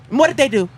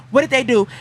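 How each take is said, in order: Both takes have the same delivery.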